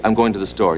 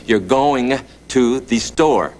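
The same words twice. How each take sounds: First: Said in the usual way. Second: You're going to the store said slowly, every sound in going spelled out; slow corrected line. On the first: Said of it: "and I say". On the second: Retold or imitated. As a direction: draw out going to the store with care, the G on the end clear. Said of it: "He says, "No, no, no, no".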